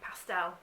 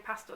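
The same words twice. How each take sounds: First: It is said in an American accent. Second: It is said in a British accent.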